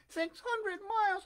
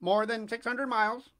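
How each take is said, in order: First: Very high, slow puppet echo; astonished Pinocchio. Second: Louder, matter-of-fact bird answer; pigeon's voice. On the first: Puppet echoing the pigeon's distance, high slow amazement. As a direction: repeat it high and drawn out in wonder. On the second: Pigeon telling the puppet the distance, loud matter-of-fact voice. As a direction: state it firmly, a little raised. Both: A narrator's reading.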